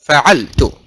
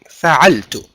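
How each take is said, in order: First: Every vowel in the word is kept short. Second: Every vowel in the word is kept short.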